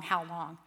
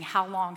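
First: The echo falls away, weary; fading plea. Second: A pleading cry to God; raised, aching plea. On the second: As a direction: call it out in anguish. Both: Retold or imitated. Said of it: "crying out to him".

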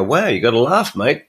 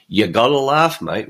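First: A lightly lifted, slightly higher Wow; mock cheerful exclamation. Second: Said in the usual way. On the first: Host acting out his inner reaction to crappy thoughts, cheery. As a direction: shrug off bad thoughts with a cheery laugh-it-off. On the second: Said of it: "Aussie humour brand that [name] keeps driving".

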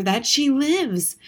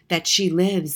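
First: Higher, louder, slowed, stress on lives; boy repeating it in awe; slow emphatic repeat. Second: Said in the usual way. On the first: A narrator's reading. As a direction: savour each word, That she lives.

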